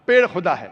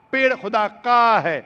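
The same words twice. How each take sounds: First: Said in the usual way. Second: "का" punched and held long; stress on possessive. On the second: Shown as a demonstration. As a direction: hit "का" hard, then fall.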